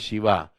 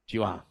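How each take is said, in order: First: The name starts with a sh sound. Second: The name starts with a ch sound.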